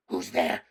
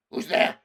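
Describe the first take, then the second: First: Growling wolf. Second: Loud breathy snarl, no voice in it; harsh wolf rasp. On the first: Wolf guard challenging the stranger at the door, growling. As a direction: snarl the challenge at the intruder. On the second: Wolf guard repeating its challenge, rasping and loud. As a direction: bark the question out in a rasping roar. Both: Acted. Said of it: "said in a growling voice".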